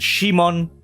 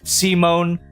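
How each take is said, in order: First: The name is said with a Japanese pronunciation. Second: The name is said with an English pronunciation. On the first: "and Shimon in ja- Japanese" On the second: "they pronounce it as Simon in the dub"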